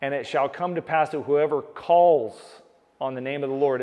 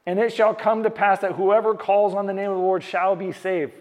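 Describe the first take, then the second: First: "calls" ko zor dekar bolo, jaise woh vachan ka mukhya shabd ho; calls par bal dete hue pavitra vachan phir se padho; stress on calls. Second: Pavitra vachan ko saaf aur thode ooncha swar mein padho; scripture reading. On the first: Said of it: "I'll say it again". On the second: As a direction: shall par halka zor dekar vachan sunao. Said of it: "he says". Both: Shown as a demonstration.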